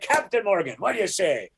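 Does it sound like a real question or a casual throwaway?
throwaway. It is said casually, as a throwaway line.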